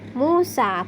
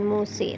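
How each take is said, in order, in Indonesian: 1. Vokal akhirnya adalah a terbuka yang jelas. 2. Vokal akhirnya condong ke e. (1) "tetap dibaca fathah"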